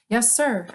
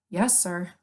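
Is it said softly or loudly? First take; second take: loudly; softly. First: It is said more loudly. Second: It is said at a normal, softer volume.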